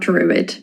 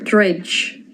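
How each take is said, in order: First: It sounds like English 'druid'. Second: It sounds like 'dredge', the Irish reading. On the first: The speaker calls it wrong. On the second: The speaker calls it right.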